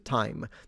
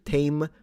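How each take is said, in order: First: The vowel sounds like the eye in my. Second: The vowel sounds like the ay in say. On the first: This is the modern pronunciation. "which evolved into time" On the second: This is the middle historical pronunciation. "which turned into tame"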